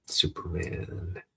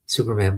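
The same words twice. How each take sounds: First: Soft, drawn-out, breath-only call; weak call. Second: Urgent voiced call for help; louder call. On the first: Acted. Boy calls through smoke to a hero, weak call. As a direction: call out slowly with little voice. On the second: Boy must make the hero hear, louder call. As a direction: call out to be heard. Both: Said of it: "I've got to yell louder".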